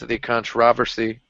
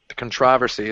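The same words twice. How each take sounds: First: It is said in an American way. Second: It is said in a British way.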